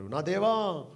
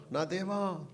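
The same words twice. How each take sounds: First: A raised, louder cry of My God; preacher voicing Jesus crying out from the cross, raised cry. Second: Said in the usual way. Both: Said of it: "బిగ్గరగా కేకలు వేస్తున్నాడు".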